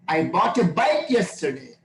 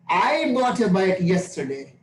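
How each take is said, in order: First: The word bike is stressed. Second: The word I is stressed.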